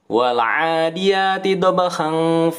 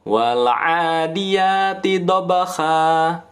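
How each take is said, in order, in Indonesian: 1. Dibaca terus, berakhir dengan bunyi n. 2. Berhenti, berakhir dengan vokal panjang. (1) "Kalau bacanya cepat disambung seperti tadi" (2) "Kita kan berhenti tuh. Maka dia dibaca mat iwad"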